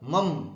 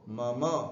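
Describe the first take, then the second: First: The word ends in a bare consonant. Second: The word ends in a full vowel. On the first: The speaker calls it wrong. "जैसे आप लोग बोलते हैं ना कई बार मम, गलत" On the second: The speaker calls it right. "बोलना क्या है उसको, मम, पूरा अक्षर है"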